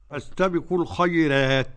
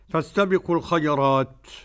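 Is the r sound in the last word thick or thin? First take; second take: thin; thick. First: The r in the last word sounds thin. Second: The r in the last word sounds thick.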